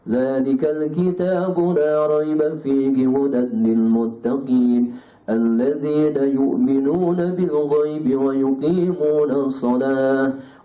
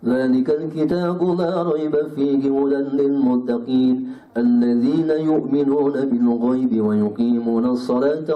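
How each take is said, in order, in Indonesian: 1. Dibaca dengan tempo sedang. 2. Dibaca dengan cepat. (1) "Itu pertengahan" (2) "Kalau hadr begini"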